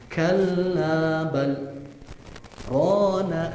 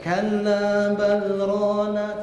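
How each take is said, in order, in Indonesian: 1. Ada jeda singkat setelah 'bal'. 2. Kata-katanya berlanjut tanpa jeda. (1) "Yang benarnya itu baca dijeda dulu ketika ada ungkapan balnya" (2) "nggak boleh kita lanjutin baca"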